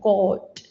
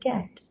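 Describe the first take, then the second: First: The word is said heavy, with a back vowel. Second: The word is said light, with a front vowel. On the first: "ഉയർത്തി ഉച്ചരിക്കും എന്ന് പറഞ്ഞാൽ നമ്മളിങ്ങനെ ഉച്ചരിക്കുക" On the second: "നമ്മൾ light ആക്കി easy way ഗോല പറയുന്ന"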